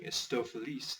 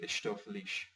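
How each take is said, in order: First: The s sounds are plain hissing s sounds. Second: The s sounds are hushing sh sounds. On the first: "instead of saying" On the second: "they use the S H as well"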